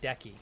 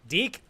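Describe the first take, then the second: First: The name is said with two syllables. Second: The name is said with one syllable. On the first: The speaker calls it wrong. "stop saying Decky" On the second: The speaker calls it right. "I finally got it!"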